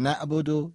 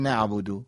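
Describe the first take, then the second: First: نعبدو said wrongly without the ayn; ayn dropped. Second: نعبدو with the throaty Arabic ayn; ayn pronounced. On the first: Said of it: "یه بار غلطشو بخونیم". (نعبدو بدون تلفظ عین) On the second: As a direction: sound the ayn clearly in نعبدو. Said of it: "یه بار درستشو بخونیم". (نعبدو با تلفظ حرف عین) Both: Shown as a demonstration.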